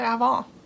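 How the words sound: It is pronounced with a French accent. "the French speaker in me wants to pronounce it Avant"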